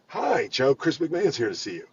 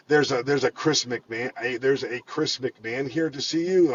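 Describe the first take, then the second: First: Easy, sure greeting, no hesitation; assured and welcoming. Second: Slow, halting, puzzled announcement; confused. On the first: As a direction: announce the guest like good news. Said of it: "All the difference in the world". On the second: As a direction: stumble over the visitor's name as if lost. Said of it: "all confused". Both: Retold or imitated.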